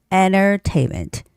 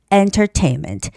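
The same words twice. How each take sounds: First: The middle T is dropped, leaving an N. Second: The middle T is clearly pronounced. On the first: "you just sort of omit that T sound and make it an N sound" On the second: "Or the hard T"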